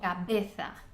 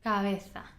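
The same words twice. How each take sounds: First: The b is pronounced fully, with lips closed. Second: The b is relaxed, with lips left slightly open. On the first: The speaker calls it wrong. "people try and uh, you know pronounce every every letter" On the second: The speaker calls it right. "rather than closing your mouth completely, you just leave it open"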